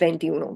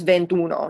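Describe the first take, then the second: First: The i vowel is pronounced before uno. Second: The i vowel is dropped before uno. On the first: The speaker calls it wrong. "instead of ventiuno" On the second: The speaker calls it right. "it kind of collapses and just becomes ventuno"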